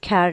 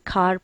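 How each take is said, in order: First: The vowel sounds like 'air'. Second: The vowel sounds like 'ah'. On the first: The speaker calls it wrong. "हम इसको खैर नहीं पढ़ते" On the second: The speaker calls it right. "बल्कि खार पढ़ते हैं"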